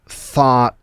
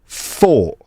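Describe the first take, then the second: First: It is said in an American accent. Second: It is said in a Cockney accent. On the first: "In American English are like" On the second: "in a Cockney accent they're going to sound like"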